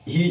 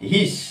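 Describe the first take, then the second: First: The word ends with a buzzing z sound. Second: The word ends with a hissing s sound. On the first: The speaker calls it right. "হিজ হচ্ছে" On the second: The speaker calls it wrong. "হচ্ছে না কি হিস"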